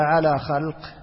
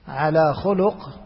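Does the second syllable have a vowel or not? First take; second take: no vowel; vowel. First: First consonant carries a, second has none. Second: Both the first and second consonants carry u. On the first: It refers to their bodily form. "بفتح الخاء وإسكان اللام" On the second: It refers to their character. "بضم الخاء واللام"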